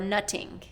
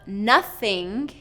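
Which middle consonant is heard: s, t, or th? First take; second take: t; th. First: The middle consonant is a t sound. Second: The middle consonant is a voiceless th sound. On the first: The speaker calls it wrong. "or T" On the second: The speaker calls it right. "the voiceless T H sound"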